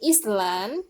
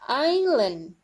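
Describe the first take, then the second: First: The word is said with an s sound. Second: The word is said without an s sound. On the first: The speaker calls it wrong. "we don't say island" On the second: The speaker calls it right. "but island"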